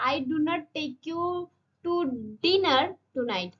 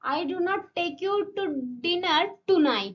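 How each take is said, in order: First: The word 'dinner' carries the main stress. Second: The word 'tonight' carries the main stress. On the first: You may be taken to lunch instead. "ডিনারে নিয়ে যাবো না অন্য লাঞ্চে ফাঞ্চে নিয়ে যেতে পারি" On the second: You will not be taken out this night. "মানে আজকে রাতে নিয়ে যাব না"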